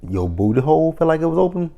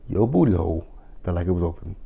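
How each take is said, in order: First: Higher, rising disbelief on "open"; incredulous question. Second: Fast, softer deadpan mock; mocking repeat. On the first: Retold or imitated. Quoting her reaction to the client, incredulous. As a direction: ask it stunned. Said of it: "I'm like". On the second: Mocking the client's dentist story, deadpan disbelief. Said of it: "repeated mocking".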